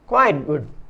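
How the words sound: Quite is stressed and good is weak. It is much less than good. "Quite पर stress मतलब बल और वीक गुड होने पर"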